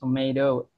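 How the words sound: It is said in an American accent. "Kalau di American English kan tomato"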